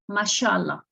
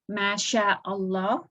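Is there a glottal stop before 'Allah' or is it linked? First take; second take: linked; glottal stop. First: Masha and Allah run together without a stop. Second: A glottal stop separates masha and Allah. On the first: It is how people actually say it. "as if the hamza does not exist" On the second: It follows the written form exactly. "if you want to read it uh, correctly, you would say"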